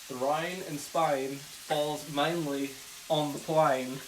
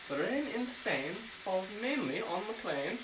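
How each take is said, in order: First: It is spoken in an Australian accent. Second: It is spoken in a British accent. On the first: "Maybe I'll do it Australian" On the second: "What's British?"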